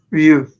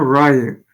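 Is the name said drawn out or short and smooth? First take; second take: short; drawn out. First: The name is said short and smooth. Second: The name is drawn out with more mouth movement. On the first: The speaker calls it right. "Just smooth, short" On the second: The speaker calls it wrong. "It's not Ryu"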